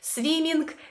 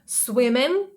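First: The ending has an audible hard g sound. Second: The ending is a nasal ng with no g. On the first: The speaker calls it wrong. "Багато хто каже" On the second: The speaker calls it right. "Але ні, ми кажемо"

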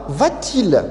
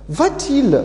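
First: A t sound separates the two vowels. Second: A t sound separates the two vowels.

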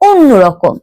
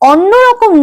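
First: The first vowel is a closed o sound. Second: The first vowel is an open aw sound. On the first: The speaker calls it right. "যেহেতু অ এর পরে নয় জফলা আছে" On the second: The speaker calls it wrong. "অন্যরকম নয়"

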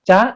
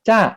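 First: The syllable is said with a high tone. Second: The syllable is said with a falling tone. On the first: "ไม้ตรี" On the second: "เติมไม้โท"

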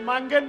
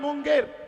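First: The first vowel sounds like 'a'. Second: The first vowel sounds like 'u'. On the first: The speaker calls it wrong. "মাঙ্গের নয়" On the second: The speaker calls it right.

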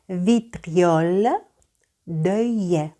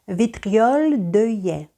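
First: The phrase is said slowly. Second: The phrase is said at a normal pace.

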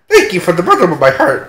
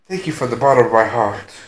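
First: It is said in a put-on character voice. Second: It is said in an ordinary voice.

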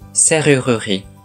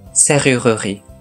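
First: The middle vowel is clearly pronounced. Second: The same.

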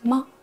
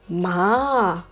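First: The syllable is short, light and quick. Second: The pitch dips low, then rises. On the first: "пятый тон или нулевой тон, это очень легко" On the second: "Третий тон"

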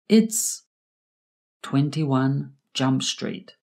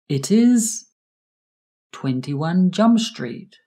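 First: The words 'it is' are contracted to 'it's'. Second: The words 'it is' are said in full.

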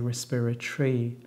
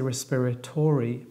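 First: The word is said with four syllables, with the 'o' dropped. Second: The word is said with five syllables, with the 'o' sounded. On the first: The speaker calls it right. "but we say respiratory. So it only has four syllables" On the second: The speaker calls it wrong. "we don't pronounce the O. So we don't say respiratory"

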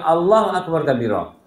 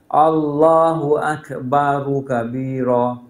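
First: Akbar runs straight into kabira, no vowel. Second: A vowel links akbar to kabira. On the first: The speaker calls it wrong. "ini salah membaca" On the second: The speaker calls it right. "ini berartilah"

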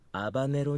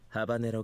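First: The word begins with a vowel, no H. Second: The word begins with an H sound.

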